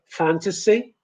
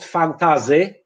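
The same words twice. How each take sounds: First: The middle consonant is an s sound. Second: The middle consonant is a z sound. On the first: The speaker calls it right. "English people would say fantasy" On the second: The speaker calls it wrong. "not fantasy, but in some northern accents, the z is possible"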